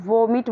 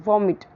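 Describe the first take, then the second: First: "वॉमिट" with a long closed O; "वॉमिट" the wrong way, like voh-meet; common mispronunciation of vomit. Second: "वॉमिट" with a short open first vowel; "वॉमिट" stressed on an open first syllable; correct pronunciation of vomit. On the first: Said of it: "बहुत लोग वॉमिट बोलते हैं". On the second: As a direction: say "वॉमिट" as VOM-it. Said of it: "ठीक है, तो वॉमिट". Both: Shown as a demonstration.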